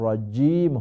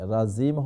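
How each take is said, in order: First: The middle consonant sounds like a 'j'. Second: The middle consonant sounds like a 'z'. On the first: The speaker calls it right. "রাজিম হবে" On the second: The speaker calls it wrong. "জায়ের মতো হয়ে যায়, রাজিম হবে না"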